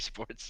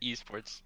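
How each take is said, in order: First: The first letter is said as 'ay'. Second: The first letter is said as 'ee'. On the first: "Do you say A Sports? ... No, I don't say" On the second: "I say"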